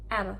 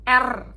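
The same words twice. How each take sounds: First: The R is light and softly flapped. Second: The R is full and strongly rolled. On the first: The speaker calls it right. "tapi R" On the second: The speaker calls it wrong. "dia tidak bulat R"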